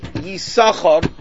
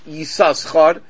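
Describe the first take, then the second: First: No second s sound is heard in the middle. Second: A second s sound is heard in the middle. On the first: "we pronounce it Yisachar, the second shin is silent" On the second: "we don't pronounce it Yisachar"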